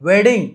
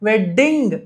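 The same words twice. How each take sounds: First: The middle d is said once, short. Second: The middle d is doubled and held. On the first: The speaker calls it right. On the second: The speaker calls it wrong.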